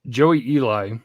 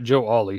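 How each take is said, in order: First: The name is split as Joey Eli. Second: The name is split as Joe Ollie. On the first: The speaker calls it right. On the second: The speaker calls it wrong.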